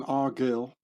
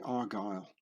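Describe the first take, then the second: First: "Argyll" read as written, ar-GILL; "Argyll" said as it looks on paper, short i; spelling pronunciation. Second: "Argyll" said ar-GUILE, long i; "Argyll" with the proper long I sound; correct pronunciation. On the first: Showing how the name is written, "Argyll" read literally as ar-GILL. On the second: Showing viewers how you say the Scottish name, "Argyll" as ar-GUILE. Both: Shown as a demonstration. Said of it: "but you say Argyll".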